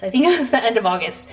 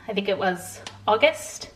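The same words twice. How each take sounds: First: August. said firmly with a falling tune, now sure; confident statement. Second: August? asked with a rising tune, unsure of the month; unsure question. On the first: To viewers, confirming the trip month, August. with a sure fall. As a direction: settle it: end of August, tune dropping to a firm close. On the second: To viewers, guessing when the trip was, rising unsure August?. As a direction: ask August? as a doubtful guess, pitch rising at the end. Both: Real, not acted.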